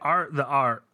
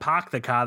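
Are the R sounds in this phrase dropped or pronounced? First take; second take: pronounced; dropped. First: The R sounds are strongly pronounced throughout. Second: The R sounds are dropped, a Boston accent. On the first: "where they only pronounce the R's" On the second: "instead of Pock the Ka"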